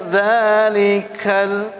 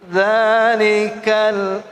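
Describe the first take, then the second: The two takes are said the same way.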